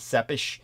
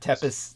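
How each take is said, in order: First: The name is said with a Romanian pronunciation. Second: The name is said with an American pronunciation. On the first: The speaker calls it right. "The Romanian language, it would be Sepish" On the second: The speaker calls it wrong. "the way Americans would pronounce it ... Tepes, they would say, but that's a terrible mispronunciation"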